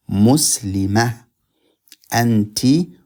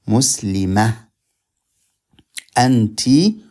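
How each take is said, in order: Both takes have the same delivery.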